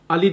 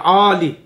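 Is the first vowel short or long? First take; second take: short; long. First: The first vowel is short, like the name. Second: The first vowel is drawn out long. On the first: It sounds like a person's name. The speaker calls it wrong. "Ali değil" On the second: It means high or lofty. The speaker calls it right. "de Ali... Ve yüksek diyeceksin"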